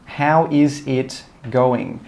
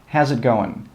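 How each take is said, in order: First: The phrase is said slowly with every word full. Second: The phrase is said quickly with the words joined.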